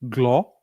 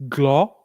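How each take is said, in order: The two takes are said the same way.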